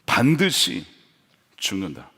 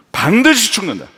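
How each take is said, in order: First: 반드시 then a pause, 죽는다 dropped low and soft; slow weighty emphasis. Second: 반드시 죽는다 said firm and a bit louder; firm emphasis. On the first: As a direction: lay 반드시 apart, let 죽는다 sink. (반드시에 힘주고 죽는다는 낮게) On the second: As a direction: hammer home 반드시. (힘주어 단호하게) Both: Shown as a demonstration. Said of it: "핵심입니다".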